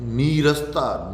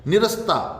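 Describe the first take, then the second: First: The first vowel is a long 'ee'. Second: The first vowel is a short 'i'. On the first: The speaker calls it right. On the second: The speaker calls it wrong.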